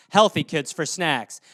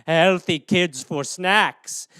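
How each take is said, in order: First: Said in the usual way. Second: Slow, lower, drawn-out villain voice; hammed-up menace; sinister gloating. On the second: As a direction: savour each word like a child-eating ghoul. Cannibal soccer mom bit.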